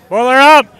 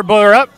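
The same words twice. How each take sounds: First: "Boiler up!" shouted louder and higher as a confident chant; proud cheer. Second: Unsure cheer, the end of "Boiler up?" rising like a question; tentative question. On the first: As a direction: belt out the chant for real. Full cheer after the trial. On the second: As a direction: test the chant hesitantly, as a question. Uncertain trial cheer. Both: Real, not acted.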